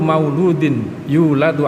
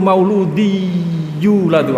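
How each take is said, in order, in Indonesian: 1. Bunyi n diucapkan dengan jelas sebelum yuladu. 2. Bunyi n melebur ke bunyi y yang mengikutinya.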